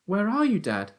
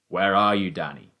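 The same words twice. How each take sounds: First: Put-on high, raised boyish call. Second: Raised father's voice, falling away; calling out. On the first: Son cannot see his father, calling out. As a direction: call high, dropping on the last word. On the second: Father calls to son in the wood, calling out. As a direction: call out loudly, then drop on the name. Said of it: "my father called out". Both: A narrator's reading.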